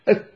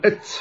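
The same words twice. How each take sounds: First: أت with a clean, crisp ta and no hiss; correct Arabic ta. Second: أت with the ta tinged by a sibilant s; hissing ta demo. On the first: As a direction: say أت with a pure Arabic ta. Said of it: "النطق الصحيح أت". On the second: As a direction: say أت with a ta leaning toward s. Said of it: "تاء مشمومة بالسين". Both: Shown as a demonstration.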